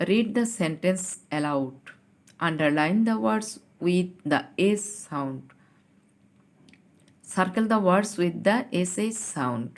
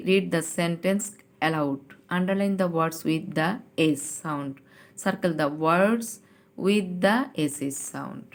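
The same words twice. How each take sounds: First: Slow, deliberate reading of the instruction; slow classroom reading; slow read-aloud. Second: Slow, careful second reading of the instruction; slow teacher re-read; slow read-aloud again. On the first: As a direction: read each word slowly for children. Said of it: "দেখো কি বলেছে". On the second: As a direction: drag each word out for the class. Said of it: "ইনস্ট্রাকশনটা আবার একটু পড়ি". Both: Shown as a demonstration.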